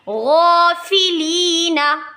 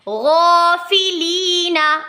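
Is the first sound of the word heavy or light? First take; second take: heavy; heavy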